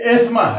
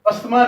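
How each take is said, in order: First: The middle 'th' sound is left silent. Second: The middle 'th' sound is pronounced. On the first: The speaker calls it right. "इसको एस्मा बोला जाएगा proper. ... इसमें टी एच silent है" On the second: The speaker calls it wrong. "ये अस्थमा नहीं है"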